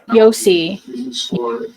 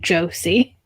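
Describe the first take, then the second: First: The name starts with a Y sound. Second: The name starts with a J sound. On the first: The speaker calls it right. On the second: The speaker calls it wrong.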